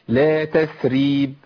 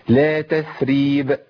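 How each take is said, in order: The two takes are said the same way.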